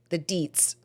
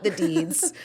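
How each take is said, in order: First: "deets" ending on a crisp t sound; corrected DEETS. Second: "deeds" ending on a voiced d sound; mistaken DEEDS. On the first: Correcting their own slip, "deets" with a final T. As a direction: say "deets" with a T at the end, not a D. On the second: Repeating their own slip to reject it, "deeds" with a D. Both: Shown as a demonstration. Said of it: "not the deeds".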